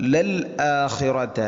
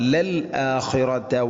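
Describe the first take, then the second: First: A glottal catch separates the l from the vowel. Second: A glottal catch separates the l from the vowel.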